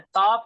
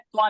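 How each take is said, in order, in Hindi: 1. यह अक्षर अलग और पूरा ta ध्वनि है। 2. यह अक्षर संयुक्त होकर tva ध्वनि बनता है। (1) "ता पूरा है" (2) "त्वा नहीं है"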